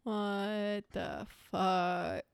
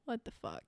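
First: Slow drawn-out disbelief. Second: Sighed disbelief. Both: Real, not acted. Stunned by the gruesome case.

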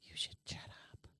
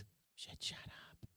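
First: Hissed whisper, no voice at all; whisper yelling. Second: Breathless hissed whisper; whisper yelling. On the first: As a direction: whisper it sharply to shut him up. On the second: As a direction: whisper it like a warning. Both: Acted. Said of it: "Why are you whispering?".

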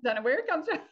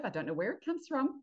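First: Mock-innocent, pitched up; playful tease. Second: Said in the usual way. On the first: Real, not acted. Teasing the host about the competitive family, playful. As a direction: repeat it higher and louder with a knowing wink.

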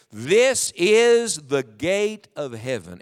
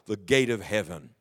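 First: "This is the gate of heaven." read very slowly and deliberately with the congregation; slow recitation. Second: "the gate of heaven." softened and dropped low; quiet repeat. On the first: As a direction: spell out "This is the gate of heaven." word by word. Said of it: "would you read the closing phrase of verse seventeen with me". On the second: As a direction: murmur "the gate of heaven." as an afterthought. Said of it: "mark that phrase in your Bible". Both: Shown as a demonstration.

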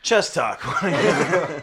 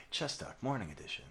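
First: Loud, laughing show intro; louder. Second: Quiet. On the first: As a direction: belt out the show name with a laugh. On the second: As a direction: say it barely above a murmur. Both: Real, not acted. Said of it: "You're talking too quietly".

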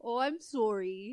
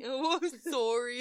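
First: Canadian sorry. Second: Imitating Canadian sorry. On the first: Acted. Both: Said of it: "you say it so weird".

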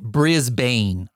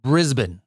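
First: "Brisbane" with a full "bane" ending, as outsiders say it; "Brisbane" with the last syllable rhyming with "rain"; wrong Brisbane. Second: "Brisbane" said slowly, with the ending reduced to "bn"; "Brisbane" with an unstressed, swallowed ending; local Brisbane. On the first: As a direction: say "Brisbane" the tourist way, BRIS-BANE. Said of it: "do not want you calling it Brisbane". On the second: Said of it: "It's Brisbane, a-, as he said". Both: Shown as a demonstration.

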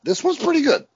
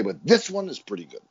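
First: Much higher, insistent "pretty good"; hammed-up insistence; mock emphatic verdict. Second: Said in the usual way. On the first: Shown as a demonstration. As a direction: sell it like a fan defending the movie. Restating the verdict two ways.

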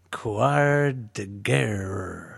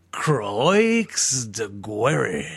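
First: Put-on very slow, half-hearted French accent; weak French accent. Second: Put-on Croix de Guerre said crisply in a French accent; proper French accent. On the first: Host's second take after co-host asks for better French, weak French accent. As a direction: stretch Quad de Guerre out in a shaky French accent. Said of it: "that's still not quite it". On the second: Host's third take finally pleasing co-host, French accent. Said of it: "Nailed it".

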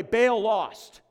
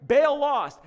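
First: Said in the usual way. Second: "Baal lost" pitched higher and punched louder; stress on Baal lost. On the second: Shown as a demonstration. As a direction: hammer "Baal lost" home as a triumphant repeat.

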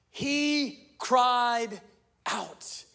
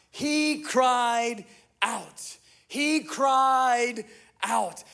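First: Said in the usual way. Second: Very slow, weighty emphasis on each word; drawn out. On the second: Shown as a demonstration. Preacher lingers on the verse to drive it home, very slowly. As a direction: stretch every word out for weight.

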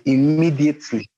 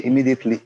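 First: "immediately" said alone, higher and punched for emphasis; stress on IMMEDIATELY. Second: Said in the usual way. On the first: Shown as a demonstration. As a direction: hit "immediately" hard to drive it home. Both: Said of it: "When I say immediately".

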